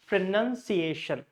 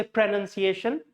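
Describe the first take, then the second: First: "pronunciation" with a clear "nun" and a clear "Asian"; clear stressed syllables. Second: "pronunciation" run together, "nun" left unclear, end rising; wrong stress, unclear syllables. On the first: Teacher showing the correct word, "pronunciation" with both stresses clear. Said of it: "none should be clear". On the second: Teacher warning learners, "pronunciation" with its stressed syllables blurred. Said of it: "So don't say pronunciation". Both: Shown as a demonstration.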